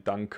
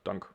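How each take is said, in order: First: The final vowel sound is clearly pronounced. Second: The final vowel sound is dropped entirely. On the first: The speaker calls it right. "you say really danke" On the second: The speaker calls it wrong. "and not dank"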